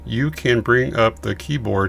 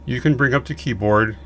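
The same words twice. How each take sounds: First: The sentence is spoken at a slower pace. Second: The sentence is spoken at a normal, quicker pace.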